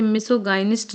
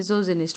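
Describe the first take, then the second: First: "misogynist" with a hard g, as miso-GAI-nist; wrong pronunciation. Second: "misogynist" with a soft z sound, as miso-zi-nist; correct pronunciation. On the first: Teacher showing students the misreading, "misogynist" with a hard-g "gai". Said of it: "नहीं पढ़ेंगे". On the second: Teacher correcting the reading for students, "misogynist" with a soft "zi". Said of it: "पढ़ेंगे". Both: Shown as a demonstration.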